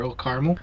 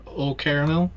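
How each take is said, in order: First: "Caramel" said as CAR-mul; two-syllable caramel. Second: "Caramel" said as KAIR-uh-mel, rising; full three-syllable "Caramel", tentative rise. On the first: Player offering the local variant, "Caramel" as CAR-mul. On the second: Player naming a local treat, "Caramel" as KAIR-uh-mel. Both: Shown as a demonstration. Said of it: "or Old Caramel".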